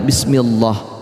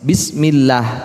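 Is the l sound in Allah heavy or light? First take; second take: heavy; light. First: The l sound in Allah is heavy and full. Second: The l sound in Allah is light and thin. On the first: The speaker calls it wrong. "tidak boleh bismillah" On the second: The speaker calls it right. "dibaca tarkik atau tipis"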